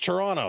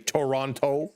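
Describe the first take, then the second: First: It is said in a Canadian accent. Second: It is said in a New York accent. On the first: "That's how Toronto folks say it. ... It's my Canadian accent" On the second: "like a lot of the uh, New York fans to say Toronto"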